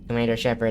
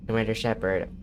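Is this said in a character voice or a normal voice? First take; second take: character voice; normal voice. First: It is said in a put-on character voice. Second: It is said in the speaker's normal voice.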